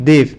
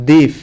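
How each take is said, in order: The two takes are said the same way.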